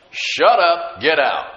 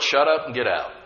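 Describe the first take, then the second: First: Loud, punched two-part order; forceful command. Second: Said in the usual way. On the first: Retold or imitated. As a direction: order the devils out, loud and firm. Punchy repeat of command to devils.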